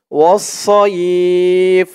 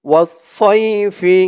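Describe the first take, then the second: First: "সইফ" closed on the f, glide stretched long; pausal pronunciation. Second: Said in the usual way. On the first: Shown as a demonstration. Teacher shows the stop at verse end, "সইফ" held long. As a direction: stop on "সইফ", drawing out the vowel before a final f. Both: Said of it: "ওয়াকফা করার কারণে উচ্চারণ হবে".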